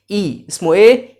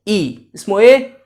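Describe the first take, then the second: No difference in how they are said.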